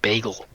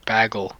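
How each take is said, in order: First: Bagel is said with the usual standard vowel. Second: Bagel is said with an Aussie-like vowel. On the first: This is how others expect it said. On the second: This is how the speaker always says it.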